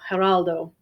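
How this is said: The name is said the Spanish way. "The Spanish is Geraldo"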